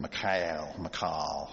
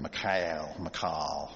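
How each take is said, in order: First: The name is said with a Russian-sounding pronunciation. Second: The same.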